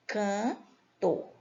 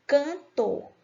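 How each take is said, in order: First: "cantor" slowly separated as can - tor; split into syllables. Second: Said in the usual way. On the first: Shown as a demonstration. Teacher demonstrating syllable division, "cantor" split with a pause. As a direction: say "cantor" in two spaced syllables. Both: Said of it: "duas sílabas".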